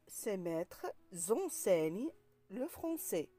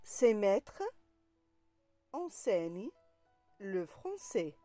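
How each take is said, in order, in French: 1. Un son z fait la liaison entre « maîtres » et « enseignent ». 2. Aucun son z ne fait la liaison entre « maîtres » et « enseignent ».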